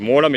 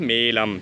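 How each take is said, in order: First: The first vowel is a long 'o'. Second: The first vowel is a long 'e'. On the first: The speaker calls it wrong. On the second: The speaker calls it right.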